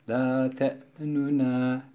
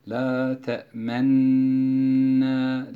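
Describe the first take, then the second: First: A faint, shortened u vowel sounds between the n's. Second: The doubled n is held with no vowel between. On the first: "bu şekildeki okuyuşa ihtilas" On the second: "Bu şekildeki okuyuşa işmam diyoruz"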